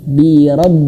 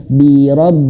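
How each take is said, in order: No difference in how they are said.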